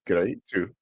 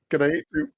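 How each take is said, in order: First: Said in the usual way. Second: "Great, too" said high and louder, as Japanese "gureeto", rising at the end; Japanese-style pronunciation. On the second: Shown as a demonstration. Streamer mimicking the Japanese reading of an English loanword. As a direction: sound out "Great, too" katakana-style with a lift. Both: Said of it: "you see how this is an English word?".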